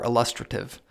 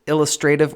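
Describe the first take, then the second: First: ILLUSTRATIVE as il-LUS-truh-tiv, stress on second syllable; alternative pronunciation. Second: ILLUSTRATIVE as IL-us-tray-tiv, stress up front; variant pronunciation. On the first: Podcaster asking listeners which is correct, second-syllable stress on "LUS". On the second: Podcaster asking listeners which is correct, first-syllable stress with "tray". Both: Shown as a demonstration. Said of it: "which, uh, pronunciation of".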